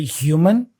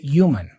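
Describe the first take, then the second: First: The word begins with an audible H sound. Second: The word begins with a vowel, no H. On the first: "some regions say human" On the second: "others say human without the H"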